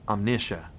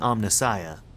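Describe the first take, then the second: First: The ending sounds like the word omniscient. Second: The ending sounds like the word Messiah. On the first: The speaker calls it right. "they're also playing with omniscient" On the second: The speaker calls it wrong. "it's spelled like Messiah. So I've been saying Omnissiah"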